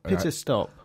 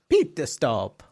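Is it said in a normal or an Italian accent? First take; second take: normal; Italian. First: It is said in the speaker's normal accent. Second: It is said in an Italian accent.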